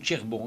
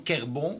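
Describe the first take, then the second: First: The word begins with a tch sound. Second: The word begins with a hard k sound. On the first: This is the Walloon form of the word. "tch en wallon" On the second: This is the Picard form of the word. "kerbon c'est le picard"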